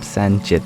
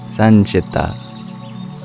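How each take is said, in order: First: The word ends on a consonant, vowel dropped. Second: The word ends with a final vowel sound. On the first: The speaker calls it wrong. "not Sanchit. That's Hindi and Gujarati" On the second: The speaker calls it right. "Sanchita, not Sanchit"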